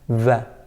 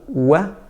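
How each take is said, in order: First: It is a V sound made with teeth and lip. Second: It is a W sound with rounded lips. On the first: "that V sound" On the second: "rounding the lips"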